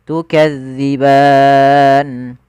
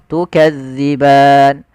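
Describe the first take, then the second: First: The final vowel is held moderately long. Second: The final vowel is held briefly. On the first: "empat harokat" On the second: "Dua harokat"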